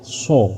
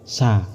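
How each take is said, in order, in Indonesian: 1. Bunyi vokalnya seperti 'o' membulat. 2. Bunyi vokalnya seperti 'a' terbuka. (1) "tapi dibaca apa? So" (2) "Bukan dibaca seperti ini. Sa. Itu salah"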